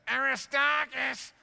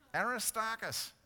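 First: The name is yelled like a mum. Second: The name is said calmly.

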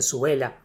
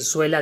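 First: The word is said in three syllables. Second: The word is said in two syllables. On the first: The speaker calls it wrong. "dicen suela" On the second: The speaker calls it right. "En lugar de decir suela"

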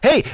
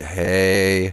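First: It is said fast and excitedly. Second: It is said calmly at normal speed. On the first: This is how it sounds at double speed. "We just sound so excited" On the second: This is how it sounds at normal playback. "Where normally it's just like"

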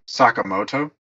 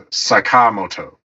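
First: The stress falls outside the middle of the word. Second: The stress falls in the middle of the word. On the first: "as Americans, we would say Sakamoto" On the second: "the way they had them pronounce it in the game is Sakamoto. So, like the inflection is in like the middle"

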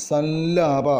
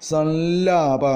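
The two takes are said the same way.

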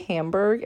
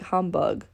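First: It is said with a Canadian English accent. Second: It is said with a German accent.

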